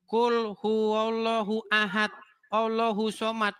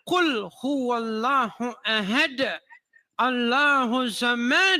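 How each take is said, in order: First: It is read in a plain local accent. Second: It is recited in an Arabic-style accent. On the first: The speaker calls it wrong. "Saya bacanya begini" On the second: The speaker calls it right.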